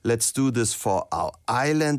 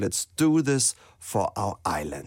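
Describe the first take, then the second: First: The opening words form an unstressed lead-in. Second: The word 'do' carries the main stress. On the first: "wir machen alles zum Auftakt" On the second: "Ich habe mich für den anderen Weg entschieden"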